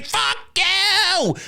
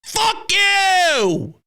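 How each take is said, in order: First: High, half-shouted curse; mock scream at the Mets. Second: High, drawn-out curse; mock scream at the Mets. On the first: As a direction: fling it at the other team. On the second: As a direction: let it rip at the opponent. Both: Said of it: "my response is always".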